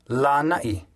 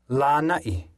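No difference in how they are said.

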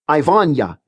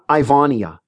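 First: The ending I-A blends into one 'ya' syllable. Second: The ending I-A is split into two syllables. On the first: The speaker calls it right. "Combine the I-A so the ending sounds like ya" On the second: The speaker calls it wrong.

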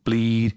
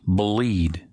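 First: There is no vowel sound before the L. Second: A small vowel sound comes before a dark L. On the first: The speaker calls it wrong. "Instead of bleed" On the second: The speaker calls it right. "Just a little shadow vowel before the L"

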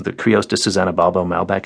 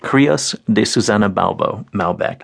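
First: The name is said at normal speed. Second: The name is said slowly.

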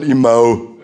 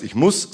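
First: It is said in an Upper Palatinate accent. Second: It is said in a Standard German accent. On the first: "der Oberpfälzer hat eine sogenannte Umlautverschiebung noch hinterhergehängt" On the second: "wenn es im Hochdeutschen heißt"

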